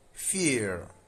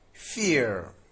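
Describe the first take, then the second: First: It is said with an American accent. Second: It is said with an American accent.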